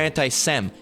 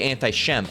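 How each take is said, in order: First: The syllable begins with a plain s sound. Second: The syllable begins with a sh sound. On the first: The speaker calls it wrong. "all of a sudden you're anti you're anti-Sem" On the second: The speaker calls it right. "It's really anti-Shem"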